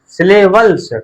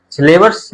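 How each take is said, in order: First: सिलेबल्स said high and clear with a final ल्स, the right word; सिलेबल्स raised and louder, each sound clear; correct word syllables. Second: सिलेबस said slowly and raised, as the word not meant; wrong word syllabus. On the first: Teacher to pupils, stressing सिलेबल्स as the right word. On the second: Teacher to pupils, marking सिलेबस as the wrong word. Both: Shown as a demonstration. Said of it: "सिलेबस नहीं".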